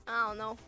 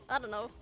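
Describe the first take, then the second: The two takes are said the same way.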